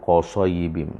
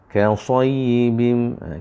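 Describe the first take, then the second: First: The first consonant is heavy and thick. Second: The first consonant is light and thin. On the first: The speaker calls it wrong. "jangan au qasayyibim" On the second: The speaker calls it right. "huruf kaf"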